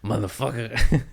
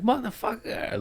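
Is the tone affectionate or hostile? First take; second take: hostile; affectionate. First: It is said harshly and aggressively. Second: It is said warmly and affectionately. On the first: The speaker is insulting or threatening the person. "or also like" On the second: The speaker loves the person. "like I love you"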